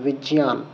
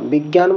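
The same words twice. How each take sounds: First: The middle consonant is a j sound. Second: The middle consonant is a g sound. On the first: The speaker calls it right. "সেটাকে বলতে হবে বিজ্ঞান" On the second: The speaker calls it wrong. "যেটাকে আমরা বিজ্ঞান বলি"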